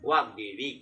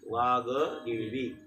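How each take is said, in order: First: The g joins the d with no vowel. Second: A full vowel follows the g before d. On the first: The speaker calls it right. "ग रस्व पाहिजे, वाघदेवी असं आहे" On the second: The speaker calls it wrong. "असं ग व पूर्ण आहे, म्हणजे दीर्घ आहे"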